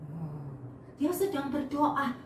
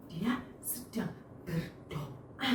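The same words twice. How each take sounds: First: Said in the usual way. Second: Much softer and slower, almost a hush; hushed, soft and slow, like a silent prayer; quiet prayer voice. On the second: Shown as a demonstration. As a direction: say it as if praying in your heart. Showing a silent, inward prayer.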